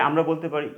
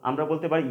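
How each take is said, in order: The two takes are said the same way.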